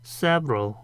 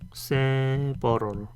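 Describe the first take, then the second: First: The word is said with two syllables. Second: The word is said with three syllables. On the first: The speaker calls it right. "이음절로 발음을 해야 된다. 요 중간에 있는 어 발음을 안 하고요" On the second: The speaker calls it wrong. "한글로 쓰면 several 이런 식으로 이렇게 삼음절로 많이 발음을 하잖아요"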